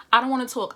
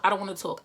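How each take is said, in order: First: Loud, firm refusal to talk; insistent. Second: Said in the usual way. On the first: Retold or imitated. Texting the ex she claims to be done with, loud insistent refusal. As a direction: push the first refusal out hard. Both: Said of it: "I hit your line like".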